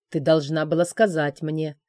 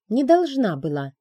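First: Hissed through teeth. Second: Higher, louder, stress on «должна»; defiant answer to the dragon; defiant retort. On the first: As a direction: hold the anger back between teeth. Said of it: "сквозь зубы прошипел он". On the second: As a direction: fling it back, chin up. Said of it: "вскинула подбородок я". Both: A narrator's reading.

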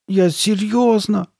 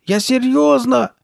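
First: High, drawn-out tearful insistence; slow high whine, close to tears; almost crying. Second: Very high, loud, drawn-out shout; slow shrieked insistence; crying out. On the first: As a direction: plead it slowly, on the verge of tears. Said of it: "чуть не плача". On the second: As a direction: yell it desperately at a high pitch. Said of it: "закричала Карли Бет". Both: A narrator's reading.

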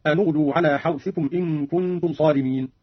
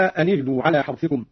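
First: أن اغدوا joined as anu-ghdu with a u on the nun; nun with damma. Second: Said in the usual way. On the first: Shown as a demonstration. Teacher demonstrates Qalun's damma on the nun. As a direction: give the nun of أن a u vowel into اغدوا. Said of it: "هكذا". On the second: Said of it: "قرأ قالون بضم أولى الساكنين".

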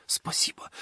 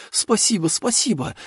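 First: Breathless whispered thank you. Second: Higher, bursting gratitude; overjoyed thanks. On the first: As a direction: whisper it through tears. (шёпотом сквозь слёзы) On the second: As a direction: cry it out with joy. (радостно, с восторгом) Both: A narrator's reading. Farmer overwhelmed with gratitude.

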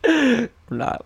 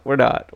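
First: Much higher, playful squeak of denial; squeaky mock denial. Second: Said in the usual way. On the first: Joking to co-host about a hiatus, squeaky mock denial. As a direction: pretend innocence, voice jumping up high.

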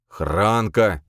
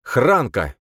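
First: Drawn-out, pleading call of the name; mild plaintive appeal. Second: Name called out loud, raised pitch; sudden loud, distinct exclamation; loud and clear. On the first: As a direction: call after him pitifully, stretching the name. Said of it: "позвал он жалобно". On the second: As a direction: blurt the name out clearly and forcefully. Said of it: "проговорить громко и чётко". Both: A narrator's reading.

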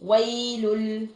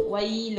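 First: ويل drawn out as "waylul", no n heard; slow ويل with the damma kept and the n turned into l; noon merged into lam. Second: ويل ending in an audible n, "waylun"; sounded final noon. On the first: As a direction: end ويل on a held l without nasal hum. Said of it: "الصوت بتاع النون الساكنة". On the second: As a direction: finish ويل on a clear n sound. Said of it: "وبعدين نون ساكنة". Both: Shown as a demonstration.

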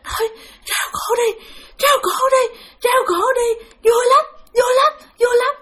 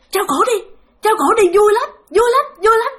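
First: High, strained, struggling to get each phrase out; laboured, halting speech. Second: High, sing-out goading chant; gleeful taunting spirits. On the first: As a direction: imitate a tormented spirit speaking with difficulty. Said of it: "kể khó khăn lắm chứ không phải là trơn tru". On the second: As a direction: egg the victim on in a high voice. Spirits gleefully urging hanging, retold. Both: Retold or imitated.

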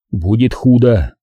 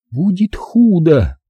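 First: Said in the usual way. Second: High, drawn-out, pensive repeat; pensive echo. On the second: A narrator's reading. Zaza repeats the warning, pensive. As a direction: repeat it slowly, lost in thought, pitched high. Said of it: "задумчиво повторила Заза".

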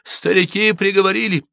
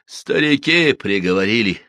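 First: Put-on high, plain village girl explaining; matter-of-fact girl. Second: «Старики» stressed with a pained falling cry; pained exclamation. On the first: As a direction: state the elders' verdict simply. Объяснила Манефа. (спокойно объясняя) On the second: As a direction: cry it out in anguish. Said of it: "с болью воскликнул". (с болью) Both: A narrator's reading.

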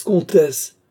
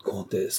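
First: Loud, high call to order; sharp protest. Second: Soft, restrained reproach; quiet protest. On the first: King interrupts the ranting countess, loud protest. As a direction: cry out to cut her off. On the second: King softly cautions the ranting countess, quiet protest. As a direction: gently try to check her. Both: Acted.

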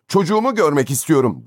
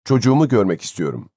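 First: High, desperate demand; almost shriek it in desperation; near scream. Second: Said in the usual way. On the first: A narrator's reading. Father demands to see his child, near scream. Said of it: "neredeyse çığlık atarcasına".

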